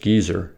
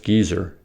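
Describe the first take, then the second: First: It is said with a British pronunciation. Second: The same.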